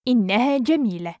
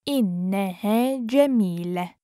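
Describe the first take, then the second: First: Quick, flowing and joined up; fast model sentence; natural speed. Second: Measured, careful teaching pace. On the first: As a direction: run the phrase together fluently. Teacher repeats phrase at speed. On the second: Teacher repeats phrase slowly joined. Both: Shown as a demonstration.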